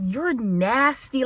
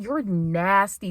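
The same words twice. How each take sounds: First: Slow drawn-out disgust. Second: Slow flat You're nasty; disgusted. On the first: Texting the frat, slow disgust. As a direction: stretch You're nasty out slowly. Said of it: "I was like". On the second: Texting the frat, flat slow disgust. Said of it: "I'm just like". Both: Retold or imitated.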